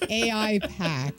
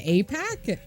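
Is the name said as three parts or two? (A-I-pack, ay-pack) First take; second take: A-I-pack; ay-pack. First: The letters A and I are said separately, then 'pack'. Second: It is said as two parts, 'ay' then 'pack'. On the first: The speaker calls it wrong. "I have never heard anyone say that before" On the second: The speaker calls it right. "You mean A PAC?"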